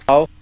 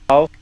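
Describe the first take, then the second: The two takes are said the same way.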